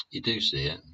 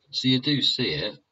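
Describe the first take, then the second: First: Said in the usual way. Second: "do" pushed high and loud in So you do see it; stress on do. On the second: Shown as a demonstration. A vlogger insists viewers notice, stressing do. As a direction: lean hard on "do".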